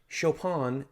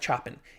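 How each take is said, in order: First: The name is not said as it is spelled. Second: The name is said as it is spelled. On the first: The speaker calls it right. "I think, how you pronounce it" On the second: The speaker calls it wrong. "It looks like Chopin"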